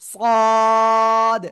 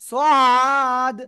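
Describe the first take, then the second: First: The letter is said with a heavy, thick sound. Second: The letter is said with a light, thin sound. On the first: The speaker calls it right. "মোটা আওয়াজে উচ্চারণ হবে" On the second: The speaker calls it wrong. "এরকম বলা যাবে না"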